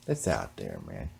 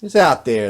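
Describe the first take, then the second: First: Much lower and softer echo; low, quiet repeat. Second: Said in the usual way. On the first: Shown as a demonstration. Repeating the point to himself, low and quiet. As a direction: drop it low, like a muttered aside.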